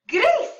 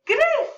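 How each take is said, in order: First: "gris" in a much higher, louder trumpeting squeak; elephant trunk squeal. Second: "Say gris" high and squeaky like a trumpet; elephant squeak again. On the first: Teacher making an elephant trunk for kids, squeaky. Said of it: "make an elephant trunk". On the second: Teacher repeating the elephant trunk motion, squeaky. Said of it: "Try it again". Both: Shown as a demonstration.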